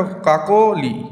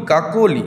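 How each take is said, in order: First: "কাকলি" very slowly as কাকো, pause, লি; teacher sounding out কাকো–লি; split into syllables. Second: Said in the usual way. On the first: Shown as a demonstration. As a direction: hold back the লি of "Kakoli" after a drawn-out কাকো. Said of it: "কাকো আর লি". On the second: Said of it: "তাহলে কাকো একটা".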